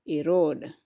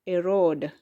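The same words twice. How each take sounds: The two takes are said the same way.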